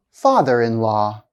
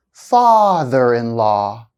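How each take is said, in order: First: Said in the usual way. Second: "Father-in-law" slowly, first syllable stretched; held first-part stress. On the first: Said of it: "the first time". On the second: Shown as a demonstration. Teacher showing compound noun stress, held demo. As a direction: hold the start of "Father-in-law" a full second. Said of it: "I'll hold the stress for one second".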